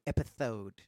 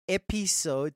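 First: The s sound is lisped like th. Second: The s sound is a clear hiss. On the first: "this lisp that has come up" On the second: "You went from episode"

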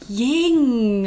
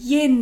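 First: The word ends with an ng sound. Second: The word ends with a plain n sound. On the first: The speaker calls it wrong. "not ying" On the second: The speaker calls it right. "Yin, darling"

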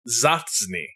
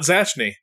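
First: The middle has a 'ts' sound. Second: The middle has no 'ts' sound. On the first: The speaker calls it right. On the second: The speaker calls it wrong. "Not Zachney"

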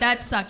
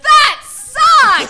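First: It is said in a flat, unexcited tone. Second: It is said in a really excited tone.

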